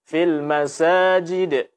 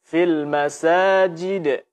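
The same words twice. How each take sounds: The two takes are said the same way.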